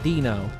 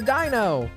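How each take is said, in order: First: The first syllable does not sound like 'ein'. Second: The first syllable sounds like German 'ein'. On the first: "not like Dino" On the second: "that is how I pronounce that"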